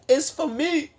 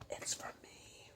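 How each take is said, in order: First: It is said louder, almost shouted. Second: It is said at normal, quieter volume.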